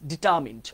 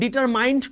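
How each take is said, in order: First: The middle syllable rhymes with 'min'. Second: The middle syllable rhymes with 'mine'. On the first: The speaker calls it right. "কি হবে?" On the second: The speaker calls it wrong. "তোমরা অনেকে ডিটারমাইন্ড করো না"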